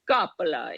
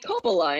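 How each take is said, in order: First: The name is pronounced with an Italian accent. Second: The name is pronounced with an American English accent. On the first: This is how the name is said in Italy. "It's actually like Coppola in Italy" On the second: This is how the media says the name. "the media would just call me Coppola"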